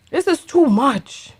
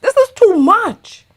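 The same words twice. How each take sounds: First: Subdued exasperation. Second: High-pitched "This is too much"; exasperated outburst. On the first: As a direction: repeat "This is too much" as a deflated aside. Same words repeated, softer and lower. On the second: Exasperated reaction, then repeated lower. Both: Real, not acted.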